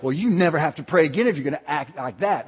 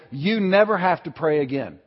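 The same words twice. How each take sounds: First: Mildly huffy, conditional rebuke; mock scolding. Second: Kindly, unhurried reassurance at normal volume; gentle reassurance. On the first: Preacher showing how God didn't say it, mock scolding. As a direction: imitate a fed-up scolder withdrawing a privilege. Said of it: "That's not the tone of voice". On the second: Retold or imitated. Holy Spirit speaking to a guilty heart, gently reassuring. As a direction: release them gently from a duty. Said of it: "not the tone of voice he was speaking in".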